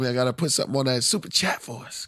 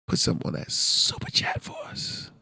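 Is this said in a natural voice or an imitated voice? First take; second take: natural; imitated. First: It is said in his natural voice. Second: It is said imitating another man's voice.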